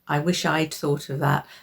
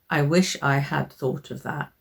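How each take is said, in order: First: "I had" is contracted to "I'd". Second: "I had" is said as two full words. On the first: The speaker calls it right. "in speaking, it's I'd" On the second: The speaker calls it wrong. "Don't say, ... It sounds a bit clunky"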